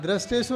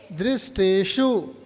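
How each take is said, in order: First: दृष्टेषु said with "dra" for "dri"; mispronunciation demo. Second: दृष्टेषु slowly as "drish-tee-shu", with "dri"; correct pronunciation. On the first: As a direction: show the wrong reading, "drasteshu" for दृष्टेषु. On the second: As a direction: stretch दृष्टेषु, starting on a clear "dri". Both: Shown as a demonstration. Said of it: "दृष्टेषु नहीं".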